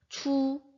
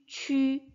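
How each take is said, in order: First: The vowel is a plain back 'oo' sound. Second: The vowel is a rounded front 'ü' sound. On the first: The speaker calls it wrong. "무언가에 이끌린 것처럼 이렇게 발음을 합니다. 그런데 그런 발음은 없다고" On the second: The speaker calls it right. "발음은 동일하게 쥐, 취, 쉬라고 읽어주셔야 됩니다"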